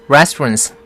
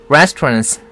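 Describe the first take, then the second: The two takes are said the same way.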